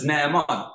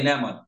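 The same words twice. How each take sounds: First: "Naaman" with the first vowel drawn out and split, NA-a-MAN; correct Naaman. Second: "Naaman" with the first two vowels run into one short syllable; common mispronounced Naaman. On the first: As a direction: give "Naaman" its full double vowel before the final syllable. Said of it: "but it's Naaman". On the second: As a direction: say "Naaman" quickly as two syllables, NAH-mon. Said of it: "most of us say". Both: Shown as a demonstration.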